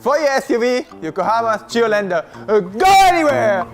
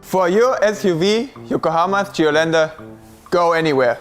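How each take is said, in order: First: The last phrase is shouted after a pause. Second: The last phrase is said at normal loudness.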